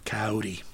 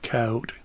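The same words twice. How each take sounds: First: "Coyote" said ky-OH-tee, final e sounded; three-syllable pronunciation. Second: "Coyote" said KY-oat, silent final e; two-syllable pronunciation. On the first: Offering listeners the other pronunciation, "Coyote" as three-syllable ky-OH-tee. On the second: Giving listeners the poem's title, "Coyote" as two-syllable KY-oat. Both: Shown as a demonstration. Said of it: "some disagreement about the proper pronunciation".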